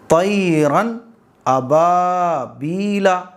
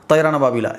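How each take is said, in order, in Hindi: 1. यह वाक्यांश धीरे पढ़ा जाता है। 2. यह वाक्यांश तेज़ पढ़ा जाता है। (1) "बिल्कुल आराम से" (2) "ऐसे जल्दी नहीं पढ़ोगे"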